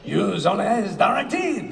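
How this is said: It is said in a French accent.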